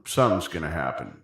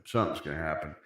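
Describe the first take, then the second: First: Said in the usual way. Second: Much softer, lower, mock-mysterious; ominous hush. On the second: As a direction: hush it like a teaser. Repeats it, teasing suspense.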